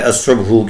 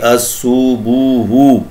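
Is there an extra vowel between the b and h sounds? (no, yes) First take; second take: no; yes. First: The b and h run together without a vowel. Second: An extra vowel separates the b and h. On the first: The speaker calls it right. "बजाय असुब्हु के" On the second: The speaker calls it wrong. "ये मुसलसल गलत पढ़ी जाती रही"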